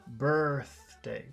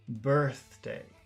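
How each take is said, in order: The two takes are said the same way.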